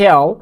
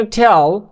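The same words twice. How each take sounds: First: "tell" with a gliding vowel, like TEH-al; the modelled "tell", vowel gliding into the L; corrected "tell". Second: "tell" with a plain short E, shown as the mistake; the wrong "tell", without a vowel glide; mispronounced "tell". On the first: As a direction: say "tell" as a drawn TE-AL. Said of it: "উচ্চারণটা tell না, কিন্তু tell". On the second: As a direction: say "tell" with a simple unglided vowel. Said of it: "উচ্চারণটা tell না". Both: Shown as a demonstration.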